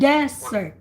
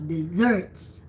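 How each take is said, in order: First: The stress is on the first syllable. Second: The stress is on the second syllable. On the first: It names a dry sandy region. "the accent is in the first syllable for Sahara desert" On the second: It names sweet foods eaten after a meal. "the emphasis is in the second syllable"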